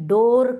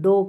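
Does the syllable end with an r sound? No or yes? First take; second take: yes; no. First: The syllable ends with an r sound. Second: The syllable ends without an r sound. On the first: The speaker calls it wrong. "डोर करायचं नाही आहे तिथं" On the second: The speaker calls it right. "डो करायचं"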